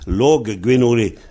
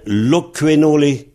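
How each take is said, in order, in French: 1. La consonne du milieu est un son g doux. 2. La consonne du milieu est un son k durci. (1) "Loquenole, c'est logguenole" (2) "Mais ça devient loquenole"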